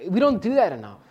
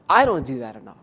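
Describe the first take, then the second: First: Said in the usual way. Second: "I" stressed, said in a much lower voice, owning it. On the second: Real, not acted. Preacher correcting "we" to "I" before his congregation, with stress on "I". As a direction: put the weight on "I", dropping the pitch low.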